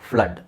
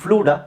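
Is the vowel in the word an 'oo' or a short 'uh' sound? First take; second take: uh; oo. First: The vowel is a short 'uh' sound. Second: The vowel is a long 'oo' sound. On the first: The speaker calls it right. "ಅ sound ಬರುತ್ತೆ" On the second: The speaker calls it wrong. "ಫ್ಲೂಡಾ? ಇಲ್ಲ"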